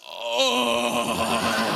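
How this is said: It is said in a coarse, rough voice.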